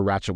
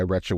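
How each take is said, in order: First: Ratchet with a flat a as in cat. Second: Ratchet pronounced like wretched, short e as in bed. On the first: Host correcting the word, Ratchet with a flat a. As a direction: Ratchet pronounced ratch-et, a as in hat. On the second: Host showing how she claims she said it, Ratchet as wretched. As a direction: Ratchet sounding like wretched, with an eh vowel. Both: Shown as a demonstration. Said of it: "I don't care if you meant to say wretched".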